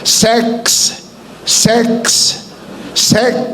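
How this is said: Each word is said with an 'e' vowel.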